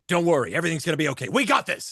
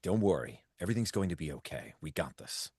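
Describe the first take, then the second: First: The tone is plain, not warm or fatherly. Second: The tone is warm, gentle and fatherly. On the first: The speaker calls it wrong. "Instead of like" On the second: The speaker calls it right. "almost a fatherly sort of approach"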